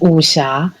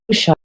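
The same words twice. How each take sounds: First: The word has Mandarin Chinese sounds and tones. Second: The word has anglicized English sounds, no tones. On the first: "the Chinese is wuxia" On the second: "if I pronounce it in English wuxia"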